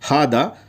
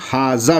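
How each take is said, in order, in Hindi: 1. बीच का व्यंजन D की आवाज़ है। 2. बीच का व्यंजन J की आवाज़ है।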